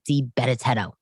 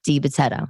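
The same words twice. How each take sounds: First: The name is said with extra added sounds. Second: The name is said without extra sounds. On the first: The speaker calls it wrong. "I had an extra T's and E's in there" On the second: The speaker calls it right. "Vic DiBettetto, not"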